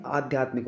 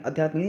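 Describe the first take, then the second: First: आध्यात्मिक opened with long aa; correct pronunciation. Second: आध्यात्मिक opened with short a; wrong pronunciation. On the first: Teacher gives the right form, आध्यात्मिक with long first aa. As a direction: stretch the first vowel of आध्यात्मिक. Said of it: "starting में बड़ी मात्रा आएगी". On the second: Teacher shows the mistake, आध्यात्मिक with short first a. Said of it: "नहीं". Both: Shown as a demonstration.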